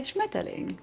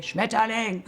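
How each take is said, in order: First: Schmetterling said softly and lightly, smooth; Schmetterling gently, like a pretty word; soft real German. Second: Schmetterling barked harshly, each syllable hard; harsh mock German. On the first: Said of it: "We say Schmetterling". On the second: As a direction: spit out Schmetterling like an angry German. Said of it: "we don't say Schmetterling". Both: Shown as a demonstration.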